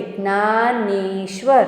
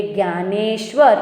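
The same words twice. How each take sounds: First: Dnyaneshwar pulled apart to show the joined vowel. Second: Said in the usual way. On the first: Shown as a demonstration. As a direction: stretch the ને in Dnyaneshwar. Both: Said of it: "ઈ કાઢીને એમાં એક માત્ર".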